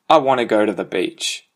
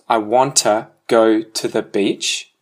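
First: It is fastest, with sounds heavily reduced and merged. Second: It is quicker, with some sounds reduced and linked.

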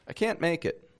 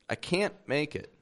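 The two takes are said the same way.

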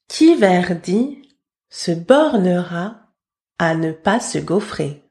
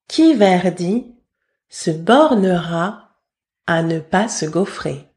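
Both takes have the same delivery.

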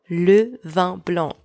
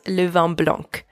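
First: The final C of blanc is silent. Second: The final C of blanc is pronounced. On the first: The speaker calls it right. "do not pronounce the C at the end of blanc" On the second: The speaker calls it wrong. "not le vin blanc"

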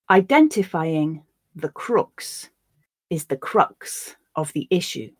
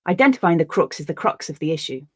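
First: The sentence is spoken slowly. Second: The sentence is spoken at natural speed. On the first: "I'll read the sentence once slowly for you to grasp the words" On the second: "Once at a more natural pace"

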